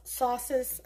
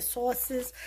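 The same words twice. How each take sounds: First: New York accent. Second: Said in the usual way. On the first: Real, not acted. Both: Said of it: "like my New York accent came out there".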